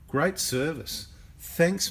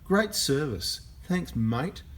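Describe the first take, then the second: First: It is read flatly, without attitude. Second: It is read with a sarcastic, annoyed tone.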